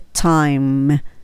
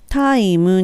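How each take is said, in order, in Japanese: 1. 鋭いtの破裂音で、母音は付かない。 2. 柔らかいtで、最後に母音が付く。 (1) "チッチッって音を出すようにして" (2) "タイムにするとカタカナ英語になる"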